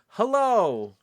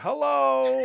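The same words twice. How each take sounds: First: It is said at a slower pace. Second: It is said too fast.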